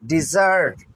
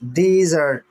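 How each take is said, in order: First: desert stressed on its final syllable; stress on second syllable. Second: desert with a firm first syllable, second one lighter; stress on first syllable. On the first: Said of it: "second one syllable को मैंने stress किया". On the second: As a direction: hit the opening syllable of desert. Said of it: "पहले पे stress जोर डाला". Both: Shown as a demonstration.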